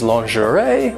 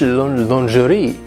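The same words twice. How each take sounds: First: It is said with an American pronunciation. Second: It is said with a French pronunciation. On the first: "American English is lingerie" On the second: "and French lingerie"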